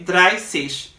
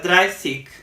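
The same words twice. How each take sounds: First: The word ends with a soft ch sound. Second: The word ends with a hard g sound. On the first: "but I say dreißig" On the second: "some Germans tend to pronounce the G sound like G"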